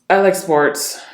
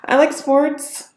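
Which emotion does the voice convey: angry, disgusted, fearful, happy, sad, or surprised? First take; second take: angry; fearful. First: The voice sounds deep and angry. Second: The voice sounds fearful. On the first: "Deep, angry tonality" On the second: "Fearful tonality"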